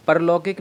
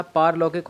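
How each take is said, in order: First: परलौकिक with a short first vowel; wrong form. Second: पारलौकिक with a long aa in paar; correct long vowel. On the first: Teacher showing the wrong word, परलौकिक with short pa. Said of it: "नहीं होता". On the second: Teacher correcting the word, पारलौकिक with long paar. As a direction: stretch the first vowel of पारलौकिक to aa. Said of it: "होता है, आ का डंडा आएगा". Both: Shown as a demonstration.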